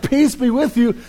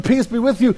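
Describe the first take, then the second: First: Lightly voiced, gently calming; calm greeting. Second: Repeating it with a laugh; laughing echo. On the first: Jesus greets frightened disciples, calmly reassuring. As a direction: soothe the terrified disciples, evenly. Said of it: "he's like". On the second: Retold or imitated. Preacher recalls a familiar line, chuckling. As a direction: say it again, laughing at the memory. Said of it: "It remi-, reminds me of".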